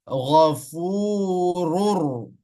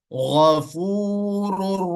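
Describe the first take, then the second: The two takes are said the same way.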